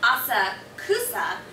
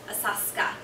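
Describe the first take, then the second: First: All four syllables are pronounced distinctly. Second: It is said fast, the middle vowel dropped. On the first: "It's spelled Asakusa" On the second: "just say it fast"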